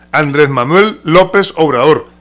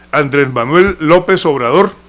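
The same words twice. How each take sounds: Both takes have the same delivery.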